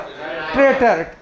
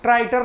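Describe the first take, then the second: First: The first syllable sounds like 'tray'. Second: The first syllable sounds like 'try'. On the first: The speaker calls it right. "ट्रेटर्स" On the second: The speaker calls it wrong. "ट्राइटर नहीं रहे"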